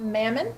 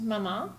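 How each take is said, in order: First: The word ends with a clear n sound. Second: The word ends without a final n sound. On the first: The speaker calls it wrong. "It's not mammon, which we get often from a lot of from a lot of Americans" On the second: The speaker calls it right. "it's pronounced mama. You don't pronounce the end"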